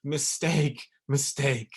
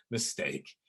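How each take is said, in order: First: Mistake, mistake said firm and a touch louder with a laugh; insistent mistake, mistake; emphatic correction. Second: Said in the usual way. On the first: Shown as a demonstration. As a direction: hammer the word mistake home. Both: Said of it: "No, no, no".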